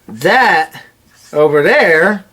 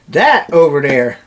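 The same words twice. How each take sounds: First: The first word starts with a TH sound. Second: The first word starts with a D sound. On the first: The speaker calls it right. "instead of" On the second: The speaker calls it wrong. "I would replace T H sound with the D"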